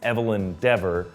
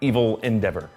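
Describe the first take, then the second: First: The syllables are grouped as the name. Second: The syllables are regrouped as two other words. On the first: It is just her name. "her name is Evelyn Dever" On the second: It hints that she is the villain. "if you just enunciate the syllables differently"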